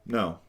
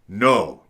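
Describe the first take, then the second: First: The no is said calmly and plainly. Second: The no is said harshly and aggressively. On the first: A boundary is being stated. "The first no, that's my boundary" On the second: Patience with the boundary crossing is running out. "you're very aggressive"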